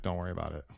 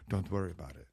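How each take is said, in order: First: Low, hushed brush-off; dismissive teenage son. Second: Soft, low attempt at an unplaceable accent; quiet brush-off in a botched accent; Johnny Ive. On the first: Retold or imitated. Fourteen-year-old answers a parent's every question, quietly dismissive. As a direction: imitate a teen calmly waving off a parent. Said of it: "he's in the phase where he just looks at you". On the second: Johnny Ive waves off the keyboard problem, hushed, botched accent. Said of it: "I don't know what accent that was".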